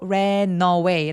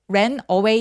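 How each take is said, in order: First: The two words run together without a break. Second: The two words are said separately. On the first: The speaker calls it right. "라고 연음합니다" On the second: The speaker calls it wrong. "ran away 아니에요"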